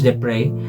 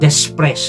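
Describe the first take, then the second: First: The name is not read the way it is spelled. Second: The name is read the way it is spelled. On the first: The speaker calls it right. "but it it is pronounced Desprez" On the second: The speaker calls it wrong. "kung babasahin ninyo"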